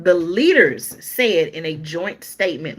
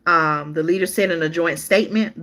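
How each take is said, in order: First: Leaders said slowly, leaning on the plural s; slow down and hit the word leaders; stress on leaders. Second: Said in the usual way. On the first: Shown as a demonstration. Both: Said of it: "More than one person, more than one leader".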